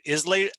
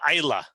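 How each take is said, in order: First: The name ends with a 'lay' sound. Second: The name ends with a 'luh' sound. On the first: The speaker calls it wrong. "instead of like the Islay, I S L A Y region" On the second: The speaker calls it right. "it's called Isla"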